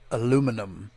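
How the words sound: It is said the American way, with four syllables. The speaker calls it wrong. "Here in America, we pronounce it aluminum"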